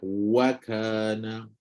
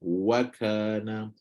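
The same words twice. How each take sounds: The two takes are said the same way.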